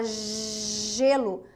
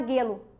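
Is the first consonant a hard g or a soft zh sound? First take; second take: soft zh; hard g. First: It starts with a soft zh sound. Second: It starts with a hard g sound. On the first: The speaker calls it right. "você fala gelo" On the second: The speaker calls it wrong. "Você não fala guelo"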